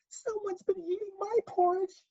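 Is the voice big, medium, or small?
small. It is said in a wee, small voice.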